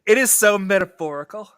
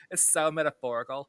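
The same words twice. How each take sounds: First: Pretentious Ki Woo. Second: Lightly voiced Valley Girl accent. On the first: Retold or imitated. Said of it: "as Key would say". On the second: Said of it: "a Valley Girl accent".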